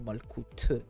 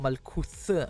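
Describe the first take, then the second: First: The word ends with a plain t sound. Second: The word ends with a th sound. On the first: The speaker calls it right. "I'm gonna pronounce it like in Hebrew" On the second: The speaker calls it wrong. "instead of Malkuth"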